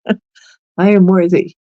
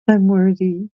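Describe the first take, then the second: First: It is said firmly, with strong conviction. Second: It is said flatly, without real conviction. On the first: The speaker truly believes the words. The speaker calls it right. "really mean it" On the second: The words are said without believing them. The speaker calls it wrong. "not just"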